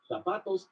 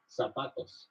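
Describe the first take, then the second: First: Spain Spanish accent. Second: Mexican Spanish accent. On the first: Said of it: "In Spain". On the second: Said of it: "In Mexico". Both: Shown as a demonstration.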